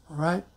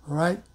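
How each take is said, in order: No difference in how they are said.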